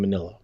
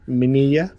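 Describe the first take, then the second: First: The middle consonant is said as an L. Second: The middle consonant is said as a Y. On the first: The name is read as English spelling. "I've been calling him Manila, like the envelope" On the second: The name is read with Spanish spelling rules. "maybe Ralph's doing Spanish pronunciation"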